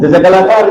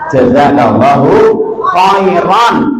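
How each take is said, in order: First: The last word ends without the final -an. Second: The last word ends with a final -an. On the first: The speaker calls it wrong. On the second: The speaker calls it right. "Yang betul jazakallahu khairan"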